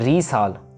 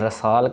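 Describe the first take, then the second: First: The first vowel is a long ee. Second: The first vowel is a short a. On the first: "ना ही रीसाल" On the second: "ना ही इसको हमने रसाल कहना है"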